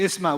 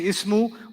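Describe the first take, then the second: First: The word ends in an a vowel. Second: The word ends in an u vowel. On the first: "we don't say isma" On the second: "we don't say ismu"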